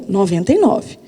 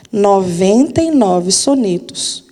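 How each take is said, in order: First: "noventa e nove" said again, quieter and lower; softer repeated stress. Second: Each number stretched out slowly; slow emphatic count. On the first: Teacher repeating the number, quieter emphasis. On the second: Teacher to students, slow emphatic stress. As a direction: lean on it slowly so it sinks in. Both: Shown as a demonstration. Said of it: "Eu digo de novo".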